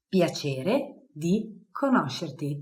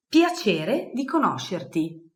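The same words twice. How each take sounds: First: Slow, clear Piacere di conoscerti; slow model phrase. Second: Said in the usual way. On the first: Shown as a demonstration. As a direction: say it slowly for learners.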